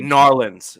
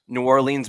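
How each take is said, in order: First: The name is squeezed into two short syllables. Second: The name is said in full, every syllable clear. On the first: The speaker calls it right. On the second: The speaker calls it wrong.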